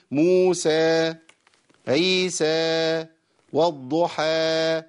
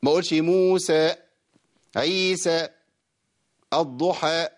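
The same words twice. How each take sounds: First: "موسى" drawn out slowly, the vowel left to die away on its own; slow "والضحى" with the long vowel fading rather than cut. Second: "موسى" said with an extra vowel tacked on; the wrong way, adding a sound to "عيسى" and "الضحى"; wrong added vowel. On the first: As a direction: let the final vowel of "عيسى" trail off naturally, very slow. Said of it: "لازم أخلي الصوت ينقطع لوحده". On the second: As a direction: demonstrate the mistake of lengthening an extra letter. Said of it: "ما ينفعش". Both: Shown as a demonstration.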